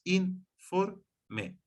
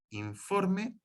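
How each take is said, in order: First: "informe" split into in, for, me; syllable by syllable. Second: Said in the usual way. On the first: Shown as a demonstration. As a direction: say "informe" as three separate syllables with gaps. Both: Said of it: "son tres sílabas".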